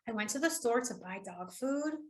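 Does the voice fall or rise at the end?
rise. The voice rises at the end like a question. It sounds like the speaker is asking something. "it's a question, right?"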